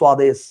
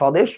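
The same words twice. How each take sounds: First: A w glide follows the first consonant. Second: No w glide follows the first consonant. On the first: This is how Indians say it. "ওরা বলে" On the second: This is how Bangladeshis say it. "আমরা বলি যেটাকে"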